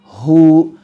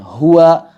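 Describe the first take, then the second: First: The word ends on a long u sound. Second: The word ends with a voiced -wa syllable. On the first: The speaker calls it right. "tapi kita baca dua harokat" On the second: The speaker calls it wrong. "dibunyikan harokatnya ... Ini adalah kekeliruan"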